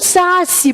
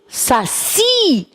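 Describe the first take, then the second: First: The stress is on the first syllable. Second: The stress is on the last syllable. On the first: The speaker calls it wrong. "Por acaso você pronuncia saci?" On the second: The speaker calls it right. "você diz que essa palavra é oxítona"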